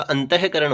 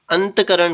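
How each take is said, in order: First: अंतःकरण with a breath "he" after anta; sounded visarga. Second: अंतकरण run straight from t into k; missing visarga. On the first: Teacher giving the correct form, अंतःकरण with visarga sounded. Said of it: "होता है". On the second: Teacher showing the faulty form, अंतकरण without visarga. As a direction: say अंतकरण as "ant-karan", no "ah". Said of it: "कुछ नहीं होता". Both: Shown as a demonstration.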